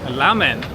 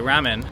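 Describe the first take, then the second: First: The word begins with an L-like sound. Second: The word begins with an R sound. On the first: This is how a local speaker said it. "she said ramen, the R and the L sounds in in Japanese" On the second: This is how it is said in the speaker's country. "in my country, we would always say ramen"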